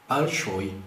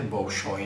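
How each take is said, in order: First: The first vowel sounds like a. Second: The first vowel sounds like o. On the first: The speaker calls it right. "É Balshoi" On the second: The speaker calls it wrong. "Mas a pronúncia não é Bolshoi"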